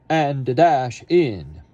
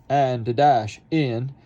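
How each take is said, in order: The two takes are said the same way.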